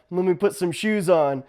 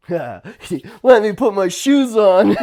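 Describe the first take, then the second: First: Said in the usual way. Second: Slow, laughing reply; amused retold answer. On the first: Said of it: "I was like". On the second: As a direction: chuckle through it. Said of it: "I'm like".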